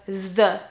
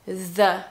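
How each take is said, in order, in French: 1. Il commence par un son th, la langue entre les dents. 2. Il commence par un son th, la langue entre les dents.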